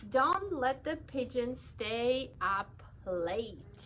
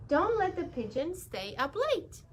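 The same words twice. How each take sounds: First: Put-on slow, announcing the book title to children; reading the title. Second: A touch higher, asking a favour; lightly voiced bus driver making a request. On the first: Shown as a demonstration. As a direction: read the title out slowly and clearly. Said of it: "Always have to read the author's name".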